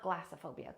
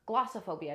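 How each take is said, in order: First: The first syllable sounds like 'glass'. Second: The first syllable sounds like 'gloss'. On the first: The speaker calls it wrong. "not glassophobia" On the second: The speaker calls it right.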